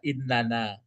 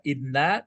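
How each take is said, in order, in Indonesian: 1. Setiap suku kata diucapkan penuh, jadi tiga suku kata yang lebih panjang. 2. Suku katanya melebur jadi dua suku kata yang pendek. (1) "innana itu ditulis semua" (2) "Kalau inna berarti melebur dia"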